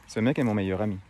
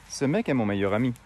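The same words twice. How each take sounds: Both takes have the same delivery.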